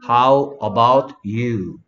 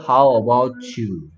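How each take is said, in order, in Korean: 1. 이 구절은 천천히 그리고 또박또박 말해요. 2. 이 구절은 빠르게 말하고 소리를 이어서 발음해요.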